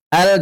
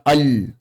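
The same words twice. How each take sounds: First: "Al" with a front a and thin l; correct al. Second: "al" with a back a and thick l; wrong al. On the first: Teacher modelling the right reading, thin "Al". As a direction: say "Al" lightly, close to el. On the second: Teacher showing the error, thick dark "al". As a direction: say "al" darkly, heavy on the l. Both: Shown as a demonstration. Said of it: "jangan dibaca al".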